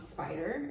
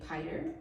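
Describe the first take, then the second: First: The word begins with the sp cluster. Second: The word begins with a plain p sound. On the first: The speaker calls it right. "it has that S P cluster" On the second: The speaker calls it wrong. "She gave me piter"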